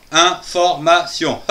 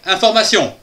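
First: "information" in four separated beats; "information" broken into distinct syllables. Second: Said in the usual way. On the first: Shown as a demonstration. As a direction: say "information" with a gap after each syllable. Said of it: "Information en quatre syllabes".

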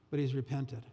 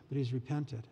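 Both takes have the same delivery.

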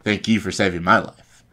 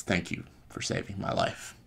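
First: Louder, insistent gratitude; emphatic thanks. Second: Softly voiced gratitude; quiet thanks. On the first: Retold or imitated. Finn returning thanks to Han, emphatic and loud. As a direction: throw the thanks back firmly. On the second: Han quietly thanking Finn for saving his life, quiet.

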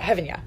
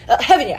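First: "heaven yeah" muttered softer, shy; quietly fix the slip, embarrassed; sheepish correction. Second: Said in the usual way. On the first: Shown as a demonstration. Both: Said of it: "My bad".

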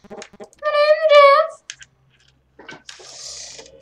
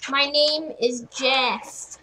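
First: High loud name is, then breathed Jeff; mock meme voice. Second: Said in the usual way. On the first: Gamer repeats the Jeff meme in a mock voice. Meme line, second take.

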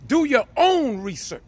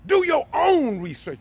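First: Firm preacher's command, stress on own; emphatic command. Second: Escalated preacher's repeat, punching Do; stress on DO. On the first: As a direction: urge them, hitting "own". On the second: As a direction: repeat it, climbing hard on "Do". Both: Real, not acted. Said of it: "why I'm talking like this".

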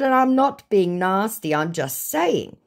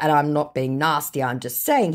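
First: Defensive. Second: Said in the usual way. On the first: Acted. Own message to scammer, acted.

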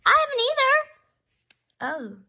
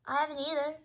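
First: Much higher, louder and slower; big, high, loud repeat; high drawn-out exclamation. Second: Said in the usual way. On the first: Pretend. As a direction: squeal it out, stretching the words. Same line repeated, far bigger.

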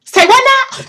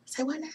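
First: High, loud double take; exaggerated stunned question; mock disbelief. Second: Very soft double take; small, under-the-breath question; hushed disbelief. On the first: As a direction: squawk it in astonishment. Stunned reaction to designer's name. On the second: Acted. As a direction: murmur it as if stunned. Same stunned reaction, repeated under breath.

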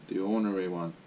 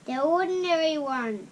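First: "ornery" said /ɔɹnəɹi/, two syllables cut; corrected word. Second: "ordinary" for ornery; misread word. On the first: Shown as a demonstration. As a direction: say "ornery" crisply, not "ordinary". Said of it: "That's a bit like stay ordinary". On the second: Real, not acted. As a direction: reads "ordinary" as /ɔdnɛɹi/.

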